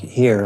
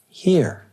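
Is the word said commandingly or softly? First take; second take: commandingly; softly. First: It is said sharply, like a command. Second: It is said gently and quietly. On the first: It orders someone to come. The speaker calls it wrong. "like you would to a dog, like a command" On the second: It acknowledges where you are. The speaker calls it right. "very softly, as an acknowledgement"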